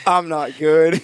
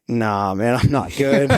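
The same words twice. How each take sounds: First: Higher and pushed on the repeat; stressed repeat. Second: Admitting he's not okay. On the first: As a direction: say it again with more alarm. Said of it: "repeats the quote". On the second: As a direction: wave off the diver with a weak little admission. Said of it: "I just immediately shake my head like". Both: Retold or imitated.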